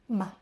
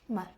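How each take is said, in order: First: It is said short, light and unstressed. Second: The same.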